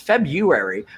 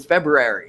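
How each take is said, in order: First: The R after 'Feb' is dropped. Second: The R after 'Feb' is pronounced. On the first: "I never" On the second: "I'm now saying the second R"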